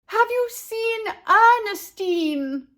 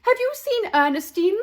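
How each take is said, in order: First: High, loud, slow yell over horns. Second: Anxious call. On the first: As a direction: yell to be heard over a band. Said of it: "yelled over the blaring horns". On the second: Parents searching for daughter. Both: A narrator's reading.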